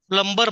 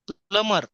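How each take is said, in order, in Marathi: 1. m नंतर b चा आवाज उच्चारला जातो. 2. m नंतर b चा आवाज उच्चारला जात नाही. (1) "प्लंबर म्हणतो आपण, कारण स्पेलिंग मध्ये बी आहे, बी चा उच्चार करतो" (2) "बी चा उच्चार करायचा नाही"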